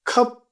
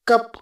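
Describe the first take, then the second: First: The first k has a breath puff. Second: The first k has no breath puff. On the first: This is the correct pronunciation. "कप का correct pronunciation खप होता है" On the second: This is how Indian speakers usually say it. "हम कप बोलते हैं।"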